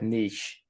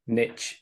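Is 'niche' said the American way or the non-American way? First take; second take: non-American; American. First: It is said the speaker's usual, non-American way. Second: It is said the way Americans pronounce it. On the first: "the word niche" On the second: "how Americans call the word niche niche"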